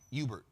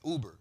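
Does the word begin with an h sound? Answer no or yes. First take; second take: yes; no. First: The word begins with an h sound. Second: The word begins with a vowel sound. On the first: The speaker calls it wrong. "He said Hubert, like Hubert" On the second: The speaker calls it right. "bro, that's Uber"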